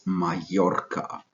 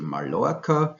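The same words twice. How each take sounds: First: The double L is said as a Y sound. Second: The double L is said as an L sound. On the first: The speaker calls it right. "double L in the Spanish language is pronounced Y" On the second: The speaker calls it wrong. "we don't say"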